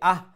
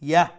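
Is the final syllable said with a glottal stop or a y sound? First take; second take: glottal stop; y sound. First: The final syllable starts with a glottal stop. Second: The final syllable starts with a y sound. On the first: The speaker calls it wrong. "হামজা দিয়া হইব কি আহ" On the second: The speaker calls it right. "ইয়া দিয়া হইব কি ইয়াহ"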